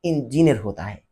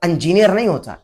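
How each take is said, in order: First: इंजीनियर said as "injiniyar", opening with a clear short i; correct pronunciation. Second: इंजीनियर said as "anjiniyar", opening with a short uh sound; wrong pronunciation. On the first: Correcting a critic's pronunciation, right form with crisp "i". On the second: Correcting a critic's Urdu pronunciation, wrong form with "uh". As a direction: start इंजीनियर with an "uh" vowel, the form he calls wrong. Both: Shown as a demonstration. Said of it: "इंजीनियर कोई लफ्ज है ही नहीं".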